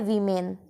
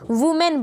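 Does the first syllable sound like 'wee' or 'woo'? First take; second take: wee; woo. First: The first syllable sounds like 'wee'. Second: The first syllable sounds like 'woo'. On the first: The speaker calls it right. "यहाँ पे हम लोग को वी बोलना चाहिए" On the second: The speaker calls it wrong. "सब लोग वू बोलते हैं ना, वुमेन बोलते हैं, बट ये देखो ये बिल्कुल गलत प्रोनाउंसिएशन है"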